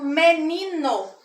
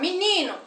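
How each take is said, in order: First: The e and o keep their full sounds. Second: The e sounds like i, the o like u. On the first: This is how it is said in Paraná. "sem haver essa alteração" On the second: This is how it is said in Pernambuco. "como se o E fosse I e o O fosse U"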